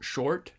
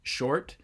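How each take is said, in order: Both takes have the same delivery.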